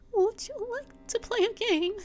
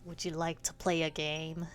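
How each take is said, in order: First: It is said in a put-on granny voice. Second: It is said without a granny voice.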